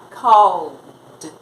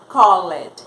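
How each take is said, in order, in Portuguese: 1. A terminação é só um som de D no final. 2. A terminação é falada como uma sílaba extra. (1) "eu vou falar called, acrescenta um som de D apenas" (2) "eu não vou falar called"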